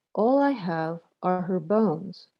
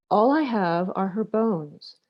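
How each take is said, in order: Both takes have the same delivery.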